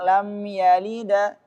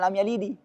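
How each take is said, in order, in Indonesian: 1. Huruf d terakhir diikuti vokal a. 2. Huruf d terakhir diikuti vokal i penuh. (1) "Kalau ke fathah lam yalida" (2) "tapi bukan lam yalidi"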